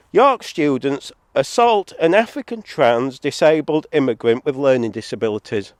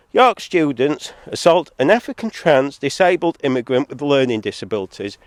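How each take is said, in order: Both takes have the same delivery.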